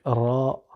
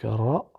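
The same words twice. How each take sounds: First: "ra" with rolled r and long-held a; drawn-out "ra", vowel held; lengthened a. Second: "ra" with rolled r and a short a; brief "ra", vowel not held. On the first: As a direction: stretch "ra" into raa. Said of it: "allongé par le alif". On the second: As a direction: say a quick "ra", Arabic r. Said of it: "le ra avec le a". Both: Shown as a demonstration.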